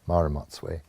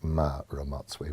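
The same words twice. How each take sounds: First: The first M sound is short and plain. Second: The first M sound is lengthened and strengthened. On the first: The speaker calls it wrong. "most people speaking English will just say Ma" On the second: The speaker calls it right. "with a, a, a strengthened M at the beginning"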